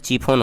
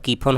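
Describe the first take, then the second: First: The word begins with a ch sound. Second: The word begins with a k sound. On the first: "च से चीफोन हो जाएगा" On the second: "क उच्चारण कीजिएगा तो कीफोन हो जाएगा"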